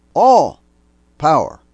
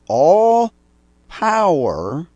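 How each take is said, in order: First: "All" shouted much higher and louder, "power" punched and falling; stress on All. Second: "All" flung out much higher and louder, then "power" held high; stress on All. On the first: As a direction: hammer "All", then land "power". Preacher repeats the verse for emphasis. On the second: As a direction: proclaim "All" and lean on "power". Preacher proclaiming Christ's authority. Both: Acted.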